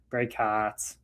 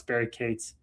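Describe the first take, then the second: First: "Katz" with short A, like hats, low and soft; short A pronunciation. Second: "Cates" with long A, like gates, said low and soft; slowly, quietly say "Cates" with an "ay" vowel; long A pronunciation. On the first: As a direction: quietly say "Katz" with a drawn cat vowel. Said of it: "with a short A". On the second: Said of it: "pronounced with a long A". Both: Shown as a demonstration.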